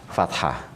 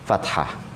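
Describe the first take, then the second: Both takes have the same delivery.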